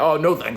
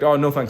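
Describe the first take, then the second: First: It is said in a condescending, judgmental tone. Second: It is said in a friendly, relaxed tone. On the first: The speaker looks down on those who drink. The speaker calls it wrong. "don't say it in, like, a dickhead, offensive way" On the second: The offer is declined without judging anyone. The speaker calls it right. "you have to say, like"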